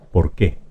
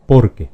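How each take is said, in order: First: "por qué" as por-QUÉ, second syllable stressed; stress on the last syllable. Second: "Porque" as POR-que, loud first syllable, light second; stress on the first syllable. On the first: Teacher contrasting two pronunciations, last-syllable stress on "por qué". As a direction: go lightly over por and lean on QUÉ in "por qué". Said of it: "palabra aguda se pronuncia por qué". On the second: Teacher contrasting two pronunciations, first-syllable stress on "Porque". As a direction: punch POR in "Porque" and let que fall away. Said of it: "es una palabra grave".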